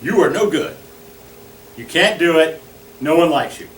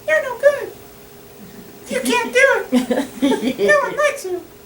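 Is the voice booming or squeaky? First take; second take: booming; squeaky. First: It is a big, resounding authoritative voice. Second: It is a high Mickey Mouse voice.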